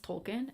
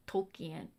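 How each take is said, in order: First: "Tolkien" in two syllables, like TOLE-kin; pronounced Tolkien. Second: "Tolkien" in three syllables, like tole-KEE-en; spelling pronunciation. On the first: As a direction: say "Tolkien" with a short reduced ending, "-kən". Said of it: "isn't it pronounced Tolkien". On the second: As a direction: sound out "Tolkien" as spelt, with "-ki-en" split. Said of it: "It looks like Tolkien". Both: Shown as a demonstration.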